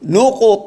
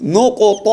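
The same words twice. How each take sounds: Both takes have the same delivery.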